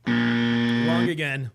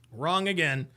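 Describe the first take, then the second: First: Slow mocking taunt. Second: Said in the usual way. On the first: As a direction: drag it out very slow and low, teasing. Taunting the guest in the clip.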